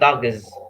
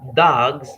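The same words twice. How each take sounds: First: An extra vowel is inserted between the final consonants. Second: The final consonants are said together without vowel. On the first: The speaker calls it wrong. "not dogs" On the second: The speaker calls it right. "we have dogs"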